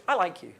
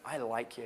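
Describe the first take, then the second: First: Said in the usual way. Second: Overly serious declaration; too heavy. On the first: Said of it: "I say it like that". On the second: Shown as a demonstration. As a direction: lower and softer, earnest and weighty.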